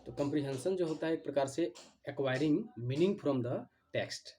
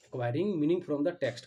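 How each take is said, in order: First: Said in the usual way. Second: Very slow, louder, each word spaced for note-taking; slow dictation. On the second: Shown as a demonstration. Teacher dictating a definition to students, very slow and louder. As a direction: dictate "Acquiring meaning from the text" word by word, slowly and loud. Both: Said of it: "ध्यान से आप लोग सुनिए".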